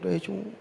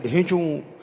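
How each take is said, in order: First: The bray is faint and quiet. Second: The bray is loud and big.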